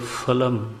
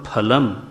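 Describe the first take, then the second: First: The first sound is a soft f with friction. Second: The first sound is a forceful aspirated ph. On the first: English pronunciation has crept in. The speaker calls it wrong. "वो अंग्रेजी घुस गई उसमें ... होंठ में से केवल हवा निकलती" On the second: The word is said with proper force. The speaker calls it right. "पकड़ करके शब्द को बोलते हैं"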